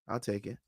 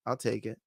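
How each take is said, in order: Both takes have the same delivery.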